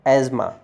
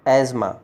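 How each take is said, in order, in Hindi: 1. बीच में एक z ध्वनि है। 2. बीच में एक z ध्वनि है।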